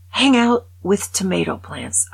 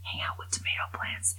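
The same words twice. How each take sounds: First: Louder, punching Hang; loud disbelieving read; read out incredulously. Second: "Hang out with tomato plants" whispered much softer, lingering on tomato; voiceless aghast whisper; stunned whisper. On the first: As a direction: announce "Hang out with tomato plants" like an absurd headline. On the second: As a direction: hush it in disbelief. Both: Shown as a demonstration. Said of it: "That is what this says".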